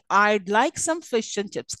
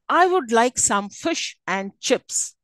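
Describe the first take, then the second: First: The word 'would' is reduced to a 'd' sound. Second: The word 'would' is said in full.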